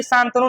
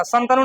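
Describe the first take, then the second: First: शांतनु with a long first 'aa', "saan-tanu"; corrected long vowel. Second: शांतनु with a short first 'a', "san-tanu"; incorrect short vowel. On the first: Teacher correcting the name, शांतनु with long first vowel. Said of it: "शांतनु नहीं, शांतनु नाम था". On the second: Teacher rejecting a wrong name, शांतनु with short first vowel. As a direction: say शांतनु as a clipped-vowel "Santanu". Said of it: "शांतनु नहीं". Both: Shown as a demonstration.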